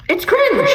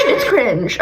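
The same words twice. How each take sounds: First: High cringe. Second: "cringe" said with a laugh at usual pitch. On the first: Vlogger squealing her verdict on JoJo, high. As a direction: squeal "cringe" much higher. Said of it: "It's cringe, okay?". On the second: Vlogger repeating her verdict on JoJo, laughing. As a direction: laugh through "It's cringe". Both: Real, not acted.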